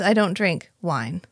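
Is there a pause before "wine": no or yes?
no. Wine follows right away with no pause.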